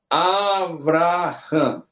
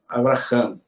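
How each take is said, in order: First: The first syllable is drawn out and weighted. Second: The first syllable is quick; weight falls at the end. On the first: The speaker calls it wrong. "tu não vai ler assim" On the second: The speaker calls it right. "Você vai ler normal"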